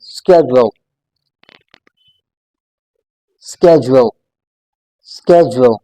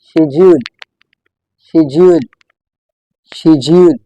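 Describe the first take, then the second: First: "schedule" starting with SK, SKEJ-ul; American pronunciation. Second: "schedule" starting with SH, SHED-yool; British pronunciation. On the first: Teacher modelling the American version, American pronunciation. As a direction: say "schedule" with a hard k after the s. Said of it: "American English में". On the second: Teacher modelling the third word, British pronunciation. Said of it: "in British English". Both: Shown as a demonstration.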